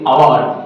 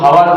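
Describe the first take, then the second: First: The word begins with a vowel sound. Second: The word begins with an h sound. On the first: The speaker calls it right. "আমরা বলি আওয়ার" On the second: The speaker calls it wrong. "আমরা কিন্তু হাওয়ার বলি না"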